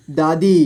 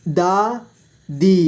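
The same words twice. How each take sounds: First: Said in the usual way. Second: दादी split slowly into दा, दी; syllable by syllable. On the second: Shown as a demonstration. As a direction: stretch and separate दा and दी in दादी. (दादी को तोड़कर धीरे: दा, दी) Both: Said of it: "इस तरह से आपको".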